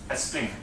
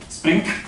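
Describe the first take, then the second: First: An extra vowel comes before the s sound. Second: The word starts directly with the s sound. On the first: This is how a Spanish speaker tends to say it. "add an extra syllable by adding an extra vowel" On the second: This is the usual English pronunciation. "Spanish people find it hard to say spring"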